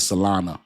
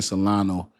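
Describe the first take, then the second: First: "Solana" with a final ah; corrected Solana. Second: "Solano" with a final oh; mispronounced Solana. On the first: Reading a viewer's correction, "Solana" ending in ah. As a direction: end "Solana" on an open A sound. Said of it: "why you keep saying Solano is Solana". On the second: Reading a viewer's complaint, "Solano" ending in oh. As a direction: end "Solano" on an O sound. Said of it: "why you keep saying Solano". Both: Retold or imitated.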